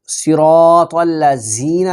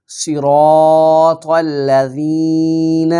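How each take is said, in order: First: الذین said quickly as "الذینہ" with a hard z and added final a; the mistake to avoid, spoken quickly in plain voice; wrong pronunciation. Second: The right take, slow tajweed chant; correct pronunciation. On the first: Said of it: "نہیں کہنا". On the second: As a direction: recite الذین correctly with the dhal sound. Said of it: "اگر زینہ پڑھیں گے تو یہ غلط ہو جائے گا". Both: Shown as a demonstration.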